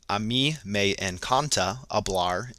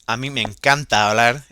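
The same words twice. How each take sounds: First: It is spoken with a strong American English accent. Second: It is spoken with a careful, native-like Spanish accent. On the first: The speaker calls it wrong. "as I have heard some other Americans speak Spanish uh, with what I would consider a not great uh, Spanish accent" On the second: The speaker calls it right. "with my my best Spanish, trying to pronounce it as correctly as possible"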